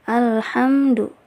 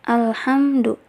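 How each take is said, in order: No difference in how they are said.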